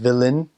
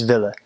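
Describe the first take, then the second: First: Willen with the final N fully pronounced; full N ending. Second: Willen said as "VIL-luh", no N; dropped final N. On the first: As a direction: finish willen on a clear N. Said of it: "they drop the N". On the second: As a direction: leave the N off the end of willen. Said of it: "They just don't pronounce it". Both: Shown as a demonstration.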